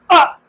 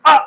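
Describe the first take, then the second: First: अ repeated higher and louder from the throat; a louder, higher demo of अ; louder a vowel demo. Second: A clipped अ sounded from the throat; short a vowel demo. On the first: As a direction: push अ out loud and high to show it. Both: Shown as a demonstration. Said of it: "तो मैंने बोला".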